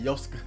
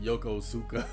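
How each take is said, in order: First: The name is squeezed into about two syllables. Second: All four syllables of the name are pronounced. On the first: "but he said Yoska" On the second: "I would pronounce it Yokosuka"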